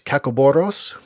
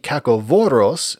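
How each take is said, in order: First: The middle consonant is a b sound. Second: The middle consonant is a v sound. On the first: This is the ancient pronunciation. "an ancient Greek word" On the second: This is the modern pronunciation. "in a more modern Greek pronunciation"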